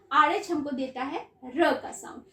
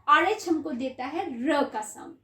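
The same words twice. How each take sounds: The two takes are said the same way.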